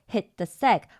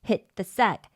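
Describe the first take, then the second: No difference in how they are said.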